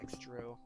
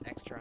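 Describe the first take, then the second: First: The second syllable is said as 'tro'. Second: The second syllable is said as 'tra'. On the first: The speaker calls it wrong. "not extro" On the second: The speaker calls it right. "It's extra, not extro"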